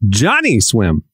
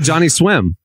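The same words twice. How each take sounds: First: The stress is on Johnny. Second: The stress is on Swim.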